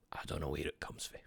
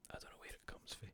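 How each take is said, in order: First: Low, quick, quiet mutter; muttered bafflement. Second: Barely audible whisper; baffled whisper. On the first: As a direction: say it under your breath, pitch dropped. Baffled muttering, first take. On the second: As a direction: repeat it to yourself with no voice. Baffled repeat fading to whisper. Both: Real, not acted.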